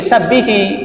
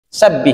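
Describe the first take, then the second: First: The word ends with an added i vowel. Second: The word ends on a bare consonant. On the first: A vowel is added before the next word. "Lah kok ini jadi sabbihi? ... harus salah satu dihidupkan" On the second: This is the base form of the word. "Sabbih asalnya begitu ya"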